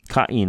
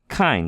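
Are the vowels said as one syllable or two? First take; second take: two; one. First: The two vowels are said as separate syllables. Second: The two vowels merge into one syllable. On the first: The diaeresis separates the vowels. The speaker calls it right. "But it's Cain" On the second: The word would have no diaeresis. The speaker calls it wrong. "if there were no di- diaresis there, that's the diaresis, two dots, we just pronounce it Cain"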